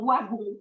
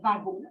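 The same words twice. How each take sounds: First: The word begins with a W sound. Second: The word begins with a V sound. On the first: This is how Belgians say it. "cette prononciation du W, vous savez que nous, on parle d'un wagon" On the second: This is how it is said in France. "et pas d'un wagon"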